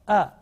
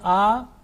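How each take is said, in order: First: The vowel is kept short. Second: The vowel is held long. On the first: The speaker calls it right. "This is only for one second" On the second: The speaker calls it wrong. "If we prolong that one, then you know the pronunciation will be wrong. ... If I say a, it will be wrong"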